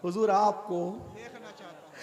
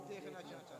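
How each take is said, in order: First: Said in the usual way. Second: Breathy whispered longing. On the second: Shown as a demonstration. Young man at the door whispers his wish to see the Prophet. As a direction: drop to a bare whisper, as if afraid to ask. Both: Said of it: "आपकी तवज्जो है ना?".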